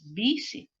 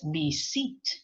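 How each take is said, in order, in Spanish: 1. El acento está en la primera sílaba. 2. El acento está en la segunda sílaba. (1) "es visit" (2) "tampoco es visit"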